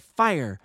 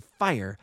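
First: Loud, higher cry of "Fire!"; short narrated shout of alarm. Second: Understated narrated shriek; mild cry of alarm, not raised in pitch; crowd's shriek. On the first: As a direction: call out the alarm, louder and higher. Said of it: "with a cry of". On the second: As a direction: echo the crowd's alarm, only slightly louder. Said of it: "joined in a general shriek of". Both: A narrator's reading.

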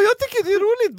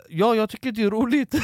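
First: Very high, loud mock-scared voice; cowardly squeal. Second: Raised, louder imitation of his own answer; acted nervous reply. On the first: Storyteller mocking his own cowardly answer to a stranger, high squeal. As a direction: squeak it out like a frightened weakling. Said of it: "Jag står som en bitch". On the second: Storyteller answering whether he finds it funny, mock-nervous reply. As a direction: answer back with mock nerve, voice lifted.

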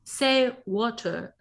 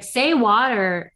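First: Attempted British accent, slow and drawn out. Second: Slow imitation of a British-accented prompt with a sounded R. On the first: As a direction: say WATER slowly in a shaky attempt at British, dropping the R. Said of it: "I can't do a British accent". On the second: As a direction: prompt slowly in a half-landed British accent. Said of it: "she would pronounce it in the accent".

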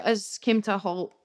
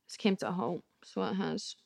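First: Said in the usual way. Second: Much softer, lower rueful echo; a quiet mock-sad echo of "It's came to a halt."; rueful mutter. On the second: Shown as a demonstration. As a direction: repeat it to yourself, deflated.

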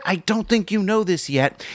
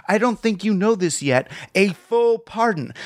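First: Conspiratorial aside. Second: Knowing aside with a wink; conspiratorial aside. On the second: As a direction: slip it in like a wink and nudge. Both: Retold or imitated. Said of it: "like an aside to the guy".

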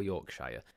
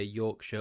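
First: Yorkshire with "shyer" at the end; American pronunciation. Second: Yorkshire with a short "shuh" at the end; British pronunciation. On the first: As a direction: say Yorkshire as YORK-SHY-er. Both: Shown as a demonstration. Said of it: "whether you say Yorkshire or Yorkshire".

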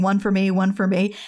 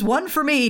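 First: Said in the usual way. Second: Mild mock scream. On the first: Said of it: "all of them saying". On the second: Toodles taking his turn after the family, mild mock scream. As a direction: pitch it up as a half-hearted scream. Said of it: "And then Toodles screams".

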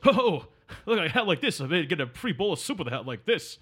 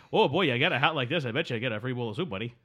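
First: Lightly voiced comic heckler; a hint of a wisecracking movie loudmouth; Rodney Dangerfield. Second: Lightly hammed-up Canadian accent; mock Canadian. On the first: Host quoting a film joke about a silly hat, light Rodney Dangerfield impression. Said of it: "an impression of Rodney Dangerfield". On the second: Host parodying a Canadian telling the hat joke, light mock Canadian accent. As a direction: redo the joke as a mild stereotype Canadian. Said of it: "If I'd be like".

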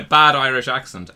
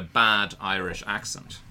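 First: "bad Irish accent" louder, as the dismissive first take; first of two contrasted takes. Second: "bad Irish accent" with deliberate weight on bad; second of two contrasted takes. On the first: Host distinguishing kinds of poor accent, emphatic "bad Irish accent". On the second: Host drawing a distinction, pointed "bad Irish accent". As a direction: land on "bad" to mark the other meaning. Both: Shown as a demonstration. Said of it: "There's a difference between".

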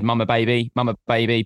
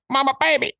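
First: Said in the usual way. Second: Much higher squawky parrot mimic; high-pitched parrot impression. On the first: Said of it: "probably not in that way". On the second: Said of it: "in a parrot's voice".

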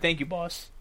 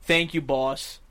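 First: Quick, low and soft; brief, understated thanks, no dragging. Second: Low, drawn-out imitation; mimicking someone's lingering, low-pitched delivery; dragged out. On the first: Shown as a demonstration. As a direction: say it briskly and quietly. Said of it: "You say it quick". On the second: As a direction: drag the words out as he did. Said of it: "he dragged it out".

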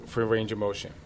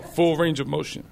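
First: Said in the usual way. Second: Lightly imitated French accent; a hint of a French accent on the quote. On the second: Trainer insisting on squat depth, in a French accent. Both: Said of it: "he says it in his French accent".

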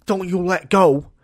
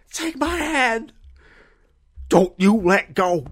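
First: Louder, slow heroic plea; mock-epic hairdresser; heroic rescuer cry again. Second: High, slow, straining heroic cry; hammed-up desperate rescuer; heroic Samwise rescue. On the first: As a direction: repeat the dramatic rescue line. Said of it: "my hairdresser's going". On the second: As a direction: call out like Sam saving Frodo from the lava.

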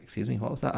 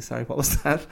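First: Lightly pointed query, raised pitch; questioning, with a rising end; retold challenge. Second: Light, high, innocent asking; harmless-sounding retold question; non-confrontational query. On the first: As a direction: mildly imitate a parent querying a mutter. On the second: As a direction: imitate politely not having heard, pitched up with a rise. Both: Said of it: "I wasn't being all confrontational".

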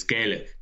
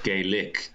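First: Said in the usual way. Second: "Gaelic" split slowly as "gay lick"; mispronounced Gaelic. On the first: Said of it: "he mispronounced it. It's Gaelic". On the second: Shown as a demonstration. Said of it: "but he said Gaelic".

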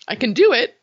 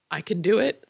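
First: "I can do it" said higher and louder, rising on "do"; emphatic. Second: Said in the usual way. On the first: Real, not acted. Proudly telling Nathan she can now hear her mom's voice, emphatic. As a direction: punch out "do" with proud conviction. Repeats line, second emphatic.

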